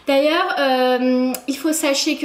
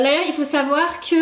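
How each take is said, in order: First: Slow mock-pompous delivery; drawn-out jokey announcement; joking voice. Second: Said in the usual way. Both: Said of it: "non, je rigole".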